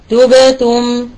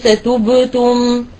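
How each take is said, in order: First: تبتم with lips spread on the silent ب; right way to say تبتم; correct demo. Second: تبتم said slowly with lips rounded throughout; wrong way demo. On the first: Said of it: "والصحيح أن نقول تبتم". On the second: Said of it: "وليس تبتم". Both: Shown as a demonstration.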